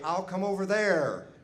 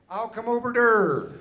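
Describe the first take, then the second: First: It is said in his normal voice. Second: It is said in a Dutch-like accent.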